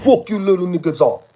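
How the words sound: It is said in an imitated African accent.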